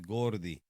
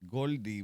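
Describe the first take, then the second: First: The middle consonant is an R sound. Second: The middle consonant is an L sound. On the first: This is the real form, meaning fatty. "in reality is Gordy, like gordo" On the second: This is how Puerto Ricans say it. "us Puerto Ricans, we pronounce the L instead of R"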